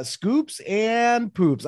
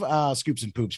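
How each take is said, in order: First: High, very slow, savoring each word; playful drawn-out echo. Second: Said in the usual way. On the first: Acted. Cohost repeats the segment name, high and drawn out. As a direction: stretch it out like a game-show catchphrase. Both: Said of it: "you have any scoops and poops this week".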